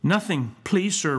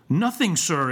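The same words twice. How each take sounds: First: Lightly voiced higher little boy; a hint of a timid child. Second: Raised, incredulous schoolmaster echo; mildly outraged exclamation; exclaimed. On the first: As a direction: plead meekly as a small pupil. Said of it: "replied the little boy". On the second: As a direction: throw it back as an indignant schoolmaster. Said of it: "exclaimed Mister Squeers". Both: A narrator's reading.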